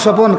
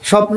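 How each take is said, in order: First: A vowel breaks up the final consonant cluster. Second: The word ends in a tight consonant cluster. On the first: This is the regional form. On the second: This is the standard form.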